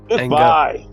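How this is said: It is said angrily, with vitriol.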